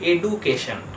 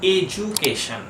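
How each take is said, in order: First: The middle consonant is a plain 'd' sound. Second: The middle consonant is a 'j' sound. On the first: The speaker calls it wrong. "টার উচ্চারণ করে এডুকেশন" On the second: The speaker calls it right. "কিন্তু ঠিক উচ্চারণটা হয় এজুকেশন"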